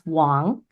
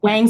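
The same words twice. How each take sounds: First: The name is said with Mandarin pronunciation. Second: The name is said with English spelling pronunciation. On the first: The speaker calls it right. "in Mandarin, it pronounced Wang" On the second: The speaker calls it wrong. "Wang sounds nothing like it"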